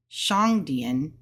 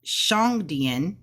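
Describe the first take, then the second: First: Shang dian again, lower, tune rising; Mandarin shang dian, repeated. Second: Shang dian slow, with a rising tune; Mandarin shang dian. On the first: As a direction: echo shang dian for the class. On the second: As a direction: model shang dian slowly for learners. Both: Shown as a demonstration. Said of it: "Now, when we have shang".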